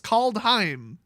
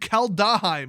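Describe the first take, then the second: First: The word is said with two syllables. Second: The word is said with three syllables. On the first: The speaker calls it right. "It's two syllables" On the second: The speaker calls it wrong. "I keep saying Kaldheim"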